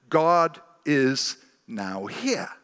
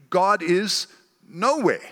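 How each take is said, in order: First: "now here" as two separate words, slowly; spaced-out NOW HERE. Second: "nowhere" run together as a single word; NOWHERE as one word. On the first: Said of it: "but some see, when they look at it". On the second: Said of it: "they see". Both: Shown as a demonstration.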